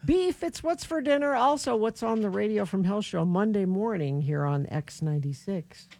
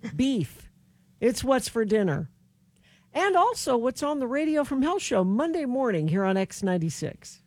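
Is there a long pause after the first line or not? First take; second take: no; yes. First: It is rushed without a long pause. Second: It has a long pause before the last part.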